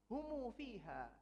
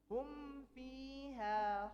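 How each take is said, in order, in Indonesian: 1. Ada vokal u tambahan setelah m. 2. Huruf m ditutup tanpa vokal setelahnya.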